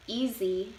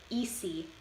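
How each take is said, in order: First: Said in the usual way. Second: "easy" with a hissed s in place of z; Chicano English pronunciation. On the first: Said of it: "in Standard English". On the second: Shown as a demonstration. Student presenter demonstrating Chicano English, "easy" with an s sound. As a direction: say "easy" as EE-see. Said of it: "and easy in Chicano English".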